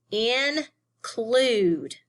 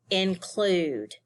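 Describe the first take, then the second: First: "include" split into in and clude; syllable by syllable. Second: Said in the usual way. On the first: Shown as a demonstration. Teacher showing two syllables, "include" broken apart. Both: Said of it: "this word has two syllables".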